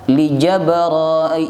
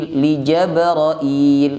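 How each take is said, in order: No difference in how they are said.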